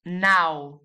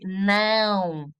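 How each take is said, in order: First: "now" with a plain open diphthong, no nasal sound; non-nasal. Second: "não" drawn out through the nose; nasal tilde sound. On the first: Teacher showing what not to say, "now" without nasality. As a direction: keep "now" out of the nose, as in English. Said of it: "would be without the tilde". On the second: Teacher showing the tilde's difference, strongly nasal "não". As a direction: stretch the nasal diphthong in "não". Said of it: "this indicates a nasal sound". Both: Shown as a demonstration.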